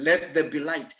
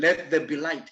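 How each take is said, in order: First: It is said as a sharp, clear command. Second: The same.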